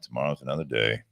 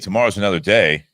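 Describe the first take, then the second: First: It is said in a flat, gloomy tone. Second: It is said in a bright, hopeful tone. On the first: Tomorrow will be just as bad as today. "trying to do that with inflection there" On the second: The future is something to look forward to. "it's not like hey tomorrow's another day"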